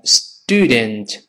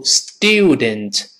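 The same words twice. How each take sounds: First: Student as "stoo-dent", slow and lower; American student with plain "oo"; glide dropped. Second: Student as "styoo-dent", slow; British student keeping the "yoo"; British y-glide. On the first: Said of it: "变成student". (美式读法 student，去掉滑音) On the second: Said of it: "注意由student". (英式读法 student，带滑音) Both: Shown as a demonstration.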